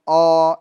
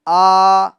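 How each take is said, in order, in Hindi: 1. स्वर की ध्वनि मोटी है, मुँह बंद रखकर। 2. स्वर की ध्वनि खुली है, मुँह पूरा खुला रखकर। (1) "ऐसे नहीं, ... अंदर अंदर हवा भरी रहेगी तो वो मोटा पड़ा जाएगा" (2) "मुंह खोल कर पढ़ना है"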